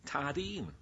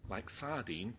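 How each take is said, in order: First: Tardine said with a hard T in place of S; Devon dialect word. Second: Said in the usual way. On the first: Shown as a demonstration. Preacher imitating Wilfred's Devon Tardine. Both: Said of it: "Like sardine, tardine".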